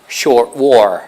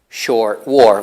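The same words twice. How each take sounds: The two takes are said the same way.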